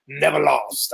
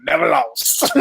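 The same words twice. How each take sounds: First: Said in the usual way. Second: Imitating a brash sports dad's catchphrase; punchy, drawn-out mock boast; LaVar Ball. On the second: Shown as a demonstration. Host quoting a boastful sports dad, playful impression. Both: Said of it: "I'm gonna say it like him".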